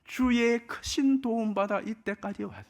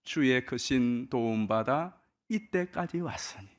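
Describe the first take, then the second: First: Much higher, stressing 크신; 크신을 높게 강조하며 간증하듯; emphatic personal testimony. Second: Hymn line read out slowly and evenly; 찬송 가사를 천천히 읊조리듯; slow lyric recital. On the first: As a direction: lift the voice high on 크신, as your own story. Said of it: "돌이켜보면". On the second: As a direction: recite the hymn words slowly, savoring each. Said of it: "이 절에 나오는 가사지 않습니까". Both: Shown as a demonstration.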